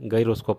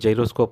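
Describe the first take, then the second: First: The word begins with a hard g sound. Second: The word begins with a j sound. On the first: This is how it was taught in childhood. "ನಮಗೆ ಇದನ್ನು ಗೈರೋಸ್ಕೋಪ್ ಅಂತಲೇ ಹೇಳಿರೋದ್ರಿಂದ ನಾನು ಇಲ್ಲಿ ಗೈರೋಸ್ಕೋಪ್ ಅಂತಲೇ ಬಳಸ್ತೀನಿ" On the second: This is how many countries pronounce it. "ತುಂಬ ದೇಶಗಳಲ್ಲಿ ಜೈರೋಸ್ಕೋಪ್ ಅಂತ ಉಚ್ಚಾರ ಮಾಡ್ತಾರೆ"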